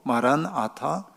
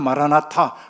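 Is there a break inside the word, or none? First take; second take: break; none. First: It is split with a break after maran. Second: It is said in one breath, no break.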